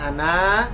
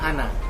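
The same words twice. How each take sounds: First: The final vowel is held long. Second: The final vowel is kept short. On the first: The speaker calls it wrong. "berarti na panjang" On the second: The speaker calls it right. "maka itu dibaca pendek"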